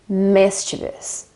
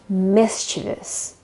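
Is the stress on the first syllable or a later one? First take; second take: first; first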